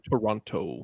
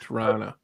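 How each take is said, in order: First: It is said in a non-Canadian way. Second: It is said in the Canadian way. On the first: This is how outsiders say it. The speaker calls it wrong. "We don't say Toronto" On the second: This is how locals say it. The speaker calls it right. "We say Toronto. That's how we Canadians say it"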